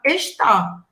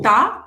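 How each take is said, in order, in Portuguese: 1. A palavra é dita por inteiro, em duas sílabas. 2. A palavra é encurtada para uma sílaba. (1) "a gente não fala está" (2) "quando a gente está falando rápido"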